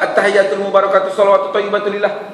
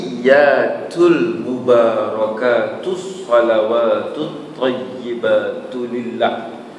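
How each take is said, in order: First: The doubled consonants are said short. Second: The doubled consonants are held long. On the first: The speaker calls it wrong. "Bila syaddahnya tak ada" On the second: The speaker calls it right. "Banyak syaddah dekat situ"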